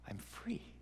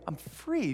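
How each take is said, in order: First: It is said quietly and dazedly. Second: It is shouted loudly and excitedly.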